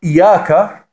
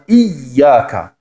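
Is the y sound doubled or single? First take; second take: single; doubled. First: The y sound is short, single. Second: The y sound is held long, doubled. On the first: The speaker calls it wrong. "wenn man nur sagt Iyaka, Iyaka, dann hat man nur ein Ja gesprochen" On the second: The speaker calls it right. "Das wäre dann Iyaka. Aber das heißt ein doppeltes Y, eine Shadda"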